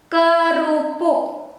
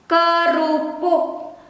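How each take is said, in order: No difference in how they are said.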